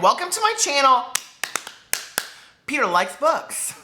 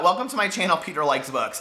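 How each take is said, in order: First: The greeting sounds upbeat and cheerful. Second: The greeting sounds flat, sullen and grumpy. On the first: The speaker is in a good mood. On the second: The speaker is in a bad mood.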